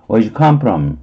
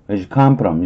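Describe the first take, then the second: First: The word 'do' is dropped entirely. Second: The word 'do' is dropped entirely.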